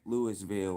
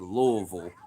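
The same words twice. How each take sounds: First: The name is pronounced the way outsiders say it. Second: The name is pronounced the way locals say it. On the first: The person saying it is not from the city. The speaker calls it wrong. "They're always gonna say" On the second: The person saying it is from the city. The speaker calls it right. "They never say"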